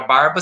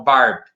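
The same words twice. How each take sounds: First: Said in the usual way. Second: Barb said with the final A dropped, ending on the B; stem without final vowel. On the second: Shown as a demonstration. Teacher showing students the stem, barb without the final A. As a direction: say barb, cutting barba short after the B. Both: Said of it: "sem o A no final".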